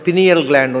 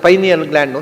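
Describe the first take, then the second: First: The first syllable sounds like 'pin'. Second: The first syllable sounds like 'pine'. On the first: The speaker calls it wrong. "ಹುಡುಗರು ತಪ್ಪಾಗಿ ಹೇಳ್ತಾರೆ" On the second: The speaker calls it right. "ಪೈನ್ ಎಲೆಯ ಶಂಕುವಿನ ಆಕಾರದಲ್ಲಿ ಇರುವುದರಿಂದ"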